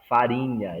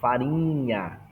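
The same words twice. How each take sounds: First: It is said in a general Brazilian accent. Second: It is said in a regional Pará accent. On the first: "eles não falam farinha" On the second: "eles falam farinha"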